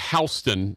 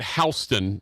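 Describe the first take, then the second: First: It is said the New York street way. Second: The same.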